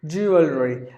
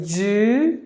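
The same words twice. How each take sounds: First: Said in the usual way. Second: Syllable by syllable. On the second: Shown as a demonstration. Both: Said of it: "There are only three syllables in this word".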